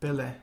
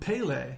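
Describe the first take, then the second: First: The name is said with Portuguese vowels. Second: The name is said with English-style vowels. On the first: The speaker calls it right. "But only in Portuguese" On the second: The speaker calls it wrong. "to not call him Pele anymore"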